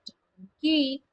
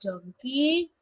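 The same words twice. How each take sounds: First: "donkey" said DON-key with the voice falling at the end; falling model. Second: "donkey" said DON-key with the voice rising at the end; rising model. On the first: Teacher models word for class, falling on "donkey". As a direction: drop "donkey" down to close it. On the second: Teacher models word for class, rising on "donkey". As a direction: lift "donkey" up like a question. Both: Shown as a demonstration. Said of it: "listen and repeat".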